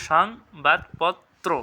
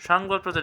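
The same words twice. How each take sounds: First: "সংবাদপত্র" very slowly, সং-বাদ-পত্-ত্রো; syllable-by-syllable pronunciation. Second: Said in the usual way. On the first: Shown as a demonstration. Teacher helping students try it, "সংবাদপত্র" slow and split. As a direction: draw out and separate each syllable of "সংবাদপত্র". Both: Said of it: "সঠিক উচ্চারণ কী হবে".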